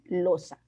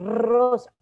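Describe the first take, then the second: First: The word begins with an L sound. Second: The word begins with a trilled R sound. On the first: The speaker calls it wrong. "decían losa" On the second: The speaker calls it right. "no tengo que detenerme y decir rosa"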